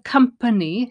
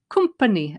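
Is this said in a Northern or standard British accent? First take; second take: standard; Northern. First: It is said in a standard British accent. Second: It is said in a Northern British accent. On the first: "instead of company" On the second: "she says company"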